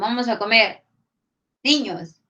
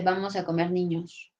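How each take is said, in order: First: There is a pause before niños. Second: It runs on without a pause before niños.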